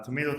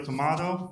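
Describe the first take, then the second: First: First "Tomato" said to-MAY-to; American pronunciation. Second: Second "Tomato" said to-MAH-to; British pronunciation. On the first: Pitching Tomato A I to judges, "Tomato" as to-MAY-to. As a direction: say "Tomato" with a long AY in the middle. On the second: Pitching Tomato A I to judges, "Tomato" as to-MAH-to. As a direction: say "Tomato" with an open AH in the middle. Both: Shown as a demonstration. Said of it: "different ways of saying it".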